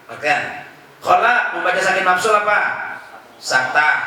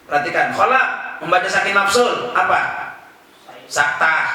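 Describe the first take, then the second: Both takes have the same delivery.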